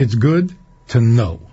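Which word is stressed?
know. The stress falls on the word know. Having knowledge is valuable. "Knowledge is good"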